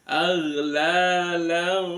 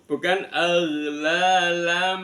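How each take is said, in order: First: The nasal is blurred, only sounding like m. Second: The nasal is said as a clear m. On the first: The speaker calls it right. "seolah-olah berbunyi mim" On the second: The speaker calls it wrong. "bukan langsung berbunyi mim"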